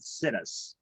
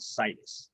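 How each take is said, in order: First: It is said so it sounds like 'sit us'. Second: It is said the ordinary way, unlike 'sit us'. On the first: The speaker calls it wrong. "I like to mispronounce words so that I remember them better. I pronounce it situs" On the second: The speaker calls it right. "People's preference for location is called situs"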